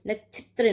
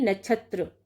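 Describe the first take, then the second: First: नक्षत्र as nachhitra, with i in the middle; wrong vowel. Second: नक्षत्र as nachhatra, with a in the middle; corrected vowel. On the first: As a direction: say नक्षत्र as na-chhit-ra. (नक्षत्र को नछित्र जैसा बोलें) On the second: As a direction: say नक्षत्र as na-chhat-ra. (नक्षत्र को नछत्र जैसा बोलें) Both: Shown as a demonstration. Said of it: "नहीं".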